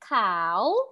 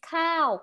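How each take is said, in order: First: The word is said on a rising tone. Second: The word is said on a high tone. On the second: It means rice. "we have the high tone, which is cow"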